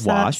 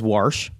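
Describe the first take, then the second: First: The word has no R sound in it. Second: The word has an R sound, like warsh. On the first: This is the ordinary way to say it. "like a human being says wash" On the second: This is how an older relative says it. "My dad says wash"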